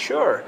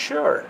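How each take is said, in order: The two takes are said the same way.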